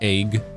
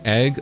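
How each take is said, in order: First: It is said in an imitated Canadian accent. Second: It is said in the speaker's usual accent.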